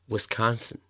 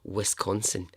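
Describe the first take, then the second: First: It is said in an American accent. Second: It is said in a Scottish accent. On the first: The speaker calls it right. "it just sounds so much better in an American accent" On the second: The speaker calls it wrong. "in a Scottish accent, it just sounds completely wrong"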